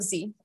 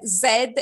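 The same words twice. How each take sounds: First: Z said as "zee", with no final d. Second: Z said as "zed", with a final d. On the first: Contrasting with the guest's choice, Z said as "zee". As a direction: say Z the American way, "zee". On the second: Praising the guest for her letter, Z said as "zed". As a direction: say Z the British way, "zed". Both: Shown as a demonstration. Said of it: "you said Z instead of Z".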